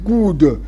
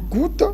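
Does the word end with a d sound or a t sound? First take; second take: d sound; t sound. First: The word ends with a d sound. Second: The word ends with a t sound.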